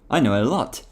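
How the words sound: It is said in a natural voice.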